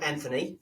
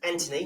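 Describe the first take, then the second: First: The name is said the Australian way. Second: The name is said the British way. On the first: The speaker calls it wrong. "not Anthony, for you all you Aussies" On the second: The speaker calls it right. "his name's Anthony"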